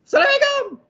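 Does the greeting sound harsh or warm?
harsh. The greeting sounds harsh and fierce. The spouse will surely not get a hug. The speaker calls it wrong. "Memang tak kena peluk"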